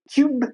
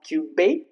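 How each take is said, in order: First: The word ends on the consonant with no vowel. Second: An extra vowel sounds after the final consonant. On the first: The speaker calls it right. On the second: The speaker calls it wrong.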